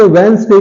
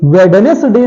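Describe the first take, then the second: First: "वेडनेसडे" said wens-de, first d dropped; silent D. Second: "वेडनेसडे" said we-da-nes-de, every syllable out; wrong pronunciation. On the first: Teacher giving correct Wednesday, silent D. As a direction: squeeze "वेडनेसडे" into wens-day. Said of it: "क्योंकि डी silent है". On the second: Teacher showing the Wednesday mistake, wrong pronunciation. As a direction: sound the first d in "वेडनेसडे". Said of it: "वेडनेसडे नहीं है". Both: Shown as a demonstration.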